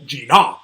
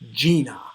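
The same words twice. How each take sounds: First: The stress is on the second syllable. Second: The stress is on the first syllable. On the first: The speaker calls it wrong. "it would not sound right" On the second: The speaker calls it right. "It's an initial stress"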